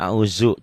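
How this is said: It is said with a Betawi accent. The speaker calls it wrong. "kalau orang Betawi a'uzu"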